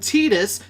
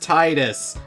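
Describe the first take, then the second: First: The name begins with a 'tee' sound. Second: The name begins with a 'tie' sound. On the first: The speaker calls it wrong. "they should have spelt it T E E D U S" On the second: The speaker calls it right. "His name should be pronounced as Titus"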